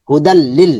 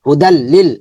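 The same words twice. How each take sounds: The two takes are said the same way.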